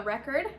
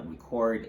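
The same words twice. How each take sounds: First: RECord, short e and weak ending; stress on first syllable. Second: ReCORD, weak first syllable, full CORD; stress on second syllable. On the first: Teacher introducing the noun, stress on REC in record. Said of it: "the stress will falls on the first syllable". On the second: Teacher showing the verb's pronunciation, stress on CORD in record. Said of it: "the stress falls in the second syllable". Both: Shown as a demonstration.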